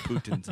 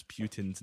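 First: "Putin's" opening with a plain "poo" sound; no y-glide after the P in "Putin's"; Poo-tin pronunciation. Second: "Putin's" opening with a "pyoo" sound; a y-glide after the P in "Putin's"; Pyoo-tin pronunciation. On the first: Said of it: "closer to the actual". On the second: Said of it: "fun way to pronounce Putin's name". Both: Shown as a demonstration.

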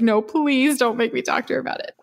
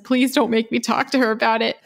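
First: Higher, lightly voiced begging student; a touch of mock pleading, pitched up. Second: Lightly voiced begging student, a bit higher; a hint of a mortified student pleading. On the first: Student begging not to ask his mother, hammed-up plea. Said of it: "They said exactly the son was like". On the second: Student begging his professor not to call mom, mock plea. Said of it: "And the student was like".

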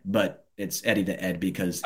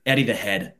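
First: "Ed" said with no H, like "Head" without its first sound; H dropped. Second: Said in the usual way. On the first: Shown as a demonstration. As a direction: drop the H from "Head" so it comes out "Ed". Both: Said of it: "when you say it with a British accent".

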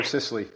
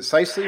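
First: Sisley with first syllable like "sis"; short-i pronunciation. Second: Sisley with first syllable like "sigh"; long-i pronunciation. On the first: Host offering the other surname option, short-i pronunciation of Sisley. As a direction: say Sisley as SISS-lee. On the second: Host checking the guest's surname, long-i pronunciation of Sisley. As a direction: say Sisley as SICE-lee. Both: Shown as a demonstration. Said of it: "did I get your name right".

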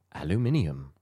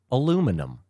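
First: "Aluminium" with its extra "ee-um" ending; British pronunciation. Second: "aluminum" with a punched, higher "LOO"; American pronunciation. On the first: Video guy demonstrating words, British pronunciation of "Aluminium". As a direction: imitate a Brit carefully saying "Aluminium". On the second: Video guy mimicking Americans, American pronunciation of "aluminum". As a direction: imitate an American saying "aluminum", ending "-num". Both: Retold or imitated. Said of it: "words that Americans pronounce".

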